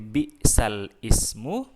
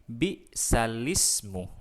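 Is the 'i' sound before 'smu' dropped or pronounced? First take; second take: pronounced; dropped. First: The 'i' sound before 'smu' is pronounced. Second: The 'i' sound before 'smu' is dropped. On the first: "sederhananya kita baca bi'sal ismu" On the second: "huruf i bi'sal ismu dihilangkan diganti dengan bi'salismu"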